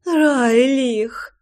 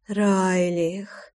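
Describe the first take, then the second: First: High, imploring call of the name; pleading. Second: Soft, purred name with a rising end; purring. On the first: Лой implores her lover by name, pleading high. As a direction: beg with РАЙЛИХ, pitched up. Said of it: "взмолилась она". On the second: Лой calls her lover by name, purring softly. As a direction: purr РАЙЛИХ softly, lifting at the end. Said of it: "замурлыкала Лой". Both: A narrator's reading.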